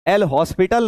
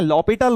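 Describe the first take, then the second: First: It is said like hospital, with h and s. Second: It is said lopital, with no h or s. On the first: The speaker calls it wrong. "उसे एल हॉस्पिटल नहीं कहते हैं" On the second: The speaker calls it right. "लॉपिटल rule कहते हैं, एच silent है"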